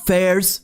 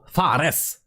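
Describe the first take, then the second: First: The name sounds like the English word fairs. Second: The name is said with its Swedish pronunciation. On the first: The speaker calls it wrong. "when people see the Fares, they think of fairs" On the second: The speaker calls it right. "No, Fares. But I'm Swedish. I know better"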